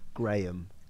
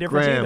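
First: The name is said in a British accent. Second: The name is said in an American accent. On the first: "And we'd say Graham. We hit every little letter" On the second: "You guys kind of go like Graham"

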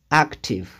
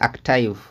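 First: The final vowel is a short 'ih' sound. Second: The final vowel sounds like 'eye'. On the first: The speaker calls it right. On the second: The speaker calls it wrong.

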